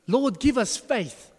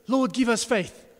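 First: Slow, louder, pitched-up cry; a mock desperate plea for help; hammed-up disciples begging, higher and louder; exasperated plea. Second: Exasperated plea. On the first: Disciples' exclamation. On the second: Retold or imitated. Disciples' exclamation repeated.

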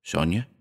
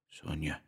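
First: Sonia with a rising, questioning end; tentative question on Sonia, tune going up. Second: Very soft, stunned murmur; name breathed to oneself; barely audible murmur. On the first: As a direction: ask "Sonia" softly, lifting the pitch at the end. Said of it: "on a note of interrogation". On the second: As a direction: murmur the name almost inaudibly. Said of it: "Almost inaudibly, he murmured". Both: A narrator's reading.

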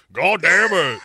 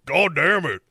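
First: Put-on loud gruff old-man curse. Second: Put-on lighter gruff old-man curse. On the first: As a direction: bark it like a cranky old man. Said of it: "Instead of, like, a [name] Yaya". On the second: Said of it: "He comes in to just jump on people's tracks".

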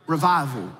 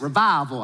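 First: Said in the usual way. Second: Southern accent. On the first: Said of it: "I want you to say revival on three". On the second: Shown as a demonstration. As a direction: say "Revival" like an old Southern revival preacher. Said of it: "hear the word revival in a Southern accent".

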